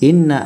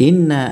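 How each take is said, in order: The two takes are said the same way.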